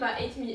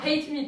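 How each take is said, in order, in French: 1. Le premier mot commence directement par une voyelle. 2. Le premier mot commence par un h aspiré. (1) "Il te mange" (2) "Faut faire hate. Tu mets un coup d'haleine"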